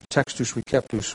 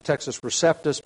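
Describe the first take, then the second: First: The c in Receptus sounds like a k. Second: The c in Receptus sounds like an s. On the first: The speaker calls it right. "would be a better pronunciation" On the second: The speaker calls it wrong. "Usually pronounced Textus Receptus, but that's really a mispronunciation of the Latin"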